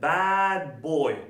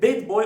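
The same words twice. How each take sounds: First: The vowel in 'bad' is a wide open sound. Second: The vowel in 'bad' is a closed e sound. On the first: It means a naughty boy. The speaker calls it right. "O yüzden ne yapacağız?" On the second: It sounds like the word for a bed. The speaker calls it wrong. "Mesela he's a bad boy olmaz. Bad deyince E ile yazılan yatak aklımıza gelir"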